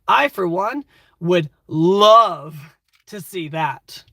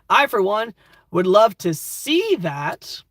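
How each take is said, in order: First: The word 'love' carries the main stress. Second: The word 'see' carries the main stress. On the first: The speaker feels passionate about it. "You're clearly very passionate about whatever we're talking about" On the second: It is a joke about the speaker's own sight. "This might be a blind character talking"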